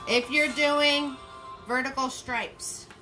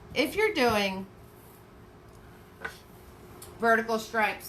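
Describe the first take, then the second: First: It is said loudly in a harsh, yelling tone. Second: It is said calmly in a gentle, friendly tone. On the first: The speaker sounds nasty. The speaker calls it wrong. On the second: The speaker sounds nice. The speaker calls it right.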